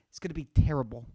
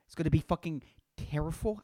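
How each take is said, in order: First: Said in the usual way. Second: "terrible" slipped into "terriful", with an f; "terrible" mispronounced as "terriful"; slip of the tongue. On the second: Real, not acted. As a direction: say "terrible" with an f replacing the b. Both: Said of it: "I said terrible".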